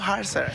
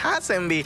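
First: The surname ends with an 'ser' sound. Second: The surname ends with a 'bee' sound. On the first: The speaker calls it right. "sino Harser" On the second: The speaker calls it wrong. "no es Hassenby"

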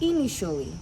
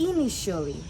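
The two takes are said the same way.

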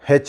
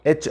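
First: The name starts with an h sound. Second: The name starts with a vowel, no h sound. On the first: The speaker calls it wrong. "చాలామంది హెచ్ అంటారు, హా, ఇది రావద్దు" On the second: The speaker calls it right. "దాన్ని మనం హెచ్ అనాలి"

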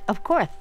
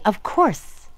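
First: The s sound is lisped, like a th. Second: The s sound is crisp and clear. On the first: The speaker calls it wrong. "Eeny lisped, you see, 'cause his teeth were few" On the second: The speaker calls it right. "He wanted to say ... as clear as could be"

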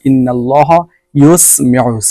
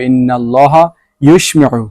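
First: The consonant is a clear Arabic 's' sound. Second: The consonant sounds like a Bengali 'sh'. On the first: The speaker calls it right. "সিন উচ্চারণ করবেন।" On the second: The speaker calls it wrong. "এটা আমি যদি বাংলাতে উচ্চারণ দিই তাহলে তো এরকম পড়তে হবে"

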